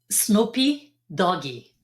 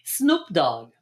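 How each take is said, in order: First: Each word ends with an added vowel sound. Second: The name is said in an English accent. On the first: "in Brazil, guess how they pronounce it" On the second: "That's how you pronounce it"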